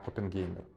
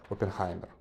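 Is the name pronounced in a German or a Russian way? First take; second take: Russian; German. First: The name is said the usual Russian way. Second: The name is said the German way.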